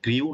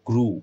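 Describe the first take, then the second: First: The vowel has a 'y' glide, like 'gryoo'. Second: The vowel is a plain 'oo', like 'groo'. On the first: The speaker calls it wrong. "এটা গ্রিউ না" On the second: The speaker calls it right. "এটা direct গ্রু"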